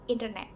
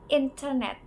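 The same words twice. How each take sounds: First: The middle T is a quick D-like flap. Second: The middle T is pronounced clearly. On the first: "often become a flap or sounding like a quick D" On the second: "The T in internet is often pronounced clearly"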